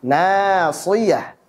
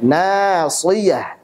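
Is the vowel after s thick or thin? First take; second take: thin; thin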